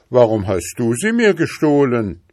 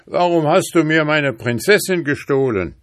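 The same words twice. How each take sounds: First: Defiant retort, raised and loud; stubborn boy standing his ground. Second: High, loud angry demand; hunter's wrathful shout, pitch raised. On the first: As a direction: throw the accusation right back. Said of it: "gab der Junge trotzig zurück". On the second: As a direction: confront the thief in outrage. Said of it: "rief er zornig". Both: A narrator's reading.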